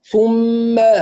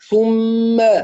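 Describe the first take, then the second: Both takes have the same delivery.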